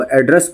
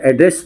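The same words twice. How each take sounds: First: "एड्रेस" said as the noun for a postal address; noun pronunciation. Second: "एड्रेस" said as the verb for addressing people; verb pronunciation. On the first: Teacher showing how meaning changes, noun pronunciation of "एड्रेस". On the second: Teacher showing how meaning changes, verb pronunciation of "एड्रेस". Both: Shown as a demonstration. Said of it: "इसका जो pronunciation है वो change हो जाता है".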